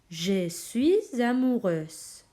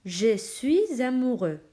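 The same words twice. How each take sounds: First: "amoureuse" very slow, final Z sound clearly voiced; feminine amoureuse. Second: "amoureux" slow, ending in an open "eu" with no consonant; masculine amoureux. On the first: Teacher shows students the feminine "amoureuse", very slow, final Z sound. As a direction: draw out "amoureuse" and land the final Z. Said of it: "quitamos la X y añadimos la S y la E". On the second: Teacher shows students the masculine "amoureux", slow and clear. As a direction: say "amoureux" slowly, no final S sound. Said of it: "Mirad este ejemplo". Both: Shown as a demonstration.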